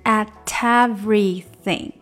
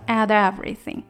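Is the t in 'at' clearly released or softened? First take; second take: clear; softened. First: The t is pronounced cleanly and fully. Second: The t is softened and blurred into the vowel. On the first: "本来应该是at everything" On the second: "所以这个t 它发不出来那么干净了，它就变成at everything"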